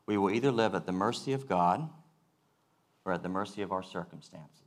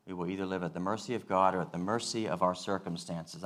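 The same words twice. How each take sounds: First: Each phrase set apart with a pause on "either" and "or"; slow and careful. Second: Said in the usual way. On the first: Shown as a demonstration. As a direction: lay out "We will either live at the mercy of God" then pause before "or". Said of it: "I'm gonna say this slow and carefully". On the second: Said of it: "I'm gonna say it twice".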